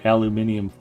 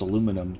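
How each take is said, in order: First: The word is said with five syllables. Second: The word is said with four syllables. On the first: This is the form used outside America. "that just doesn't sound right to Americans" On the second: This is the usual American form. "I mispronounce aluminum"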